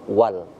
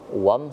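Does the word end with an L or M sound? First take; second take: L; M. First: The word ends with a clear l sound. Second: The word ends with an m sound. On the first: The speaker calls it right. "kita harus membaca alif lamnya dulu wal" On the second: The speaker calls it wrong. "Tidak kita baca wam seperti alif lam syamsiyah"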